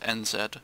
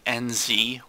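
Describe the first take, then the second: First: The letter Z is said the British way. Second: The letter Z is said the non-British way. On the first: This is how a British person says it. "for a British guy, I'm gonna, you know, it's N Z" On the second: This is what the listeners may call them. "as you may, may call them"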